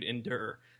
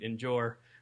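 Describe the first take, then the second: First: The middle sound is a plain 'd'. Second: The middle sound is a 'j' sound. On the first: This is the familiar, real word. The speaker calls it right. "my vocabulary does include endure" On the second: This is a strange, made-up version of the word. The speaker calls it wrong. "it does not include endure, which is evidently some kind of strange uh, language I just developed"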